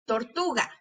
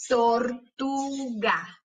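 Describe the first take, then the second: First: Said in the usual way. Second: "Tortuga" very slowly as tor, tu, ga; split into syllables. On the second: Shown as a demonstration. Teacher showing closed syllables, syllable by syllable. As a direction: stretch and separate each syllable of "Tortuga". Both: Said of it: "para ver cuáles de esas sílabas".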